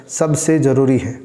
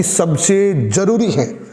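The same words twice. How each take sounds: First: Said in the usual way. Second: Insist, leaning hard on "जरूरी"; stretched, weighty "सबसे", then stressed "जरूरी"; emphatic सबसे जरूरी. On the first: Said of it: "इसको मैं ऐसे भी बोल सकता". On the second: Shown as a demonstration. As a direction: punch "सबसे" and "जरूरी" separately. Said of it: "अब मैंने आपको ये बोला है".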